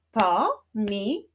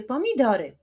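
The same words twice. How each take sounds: First: "Pomidory" split as po, mi, do, ry; syllable by syllable. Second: Said in the usual way. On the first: Shown as a demonstration. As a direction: clap out "Pomidory" in four separate beats. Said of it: "wyklaszczmy sylaby". („Pomidory” sylabami: po, mi, do, ry) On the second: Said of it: "wyklaszczmy sylaby w wyrazie".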